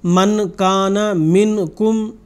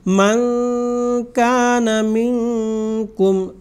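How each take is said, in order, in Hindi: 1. k से पहले का n पूरी तरह और साफ़ बोला जाता है। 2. k से पहले का n छुपा हुआ और नासिका से बोला जाता है। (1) "इसको हम इस तरह नहीं पढ़ेंगे" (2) "बल्कि"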